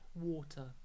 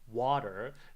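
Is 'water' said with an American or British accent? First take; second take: British; American. First: It is said with a British accent. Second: It is said with an American accent. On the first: "British pronunciation" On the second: "American pronunciation is fine"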